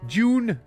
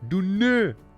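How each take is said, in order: First: The word starts with a J sound. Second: The word starts with a plain D sound.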